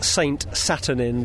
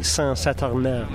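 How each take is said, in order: First: The name is said with an English accent. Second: The name is said with a French accent. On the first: "if you were pronouncing it completely without any French accent" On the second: "but the other would be"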